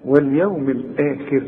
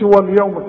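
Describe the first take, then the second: First: «واليوم الآخر» بصوت أهدأ وحروف رقيقة; انطق «واليوم» بواو رقيقة وبهدوء; ترقيق. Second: «واليوم» بواو غليظة; فخم «واليوم» كنموذج للخطأ; تفخيم خاطئ. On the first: Shown as a demonstration. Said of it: "خليك رقيق". («واليوم الآخر» منخفضة ومرققة) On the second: Retold or imitated. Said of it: "ما تقولش واليوم كده". («واليوم» دون ترقيق)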